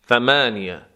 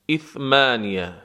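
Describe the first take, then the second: First: The word begins directly with a th sound. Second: The word begins with a vowel before th.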